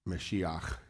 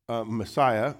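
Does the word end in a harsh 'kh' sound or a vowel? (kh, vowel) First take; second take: kh; vowel. First: The word ends in a throaty 'kh' sound. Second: The word ends in an open vowel sound. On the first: The speaker calls it right. "is the way you'd say it in Hebrew" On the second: The speaker calls it wrong. "which we're mispronouncing"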